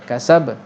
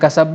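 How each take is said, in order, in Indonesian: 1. Huruf b terakhir dilepaskan dengan lantunan. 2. Huruf b terakhir diakhiri dengan hentian glotis tambahan. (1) "kena lantunkan" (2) "jangan sampai ada hamzah"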